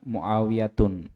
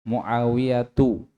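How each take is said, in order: First: The name ends in u followed by n. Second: The name ends in a plain u vowel. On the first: The speaker calls it wrong. "jangan Muawiyatun" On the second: The speaker calls it right.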